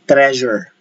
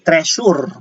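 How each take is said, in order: First: The middle consonant is a buzzing Z-like sound. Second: The middle consonant is a hissing S sound. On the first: The speaker calls it right. "We say treasure" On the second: The speaker calls it wrong. "spelled with letter S, but we do not say treasure"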